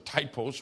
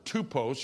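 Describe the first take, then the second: First: The word is pronounced the English way. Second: The word is pronounced the Greek way. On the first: "or typos, we would say it" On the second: "the Greek word typos"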